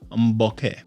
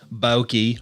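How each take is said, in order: First: The word ends like okay. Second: The word does not end like okay. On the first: The speaker calls it right. "it's like okay, except with an eh at the end and a b up front" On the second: The speaker calls it wrong. "It's not bokeh"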